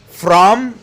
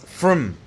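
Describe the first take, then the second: First: The word is said in its full, strong form. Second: The word is said in a reduced, weak form.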